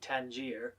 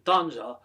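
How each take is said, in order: First: The name is pronounced the English way. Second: The name is pronounced the Arabic way. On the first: "the normative English pronunciation of the city Tangier" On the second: "the Arabic pronunciation"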